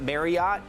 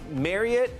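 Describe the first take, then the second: First: It is pronounced unlike Elliot. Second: It is pronounced to sound like Elliot. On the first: The speaker calls it wrong. "not Marriott" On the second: The speaker calls it right. "it's Marriott, like Elliot"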